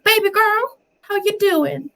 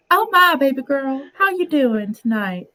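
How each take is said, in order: First: Very high-pitched flirty Southern belle. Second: Southern accent, moderately raised pitch; lightly put-on Southern flirt trying to pass as a man. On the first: Retold or imitated. Niece imitating her flirting aunt, high Southern belle. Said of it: "she turns into a Southern belle". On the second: Shown as a demonstration. Streamer passing off as a man, Southern flirting voice. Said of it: "when I wanna pass off as, as a man".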